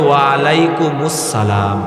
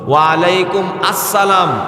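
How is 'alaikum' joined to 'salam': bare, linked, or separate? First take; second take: linked; separate. First: Alaikum runs into 'us-salam' with a linking u. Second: Alaikum is followed by a separate 'assalam'. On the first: The speaker calls it right. "বরং সঠিকটা হবে" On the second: The speaker calls it wrong. "ভুল"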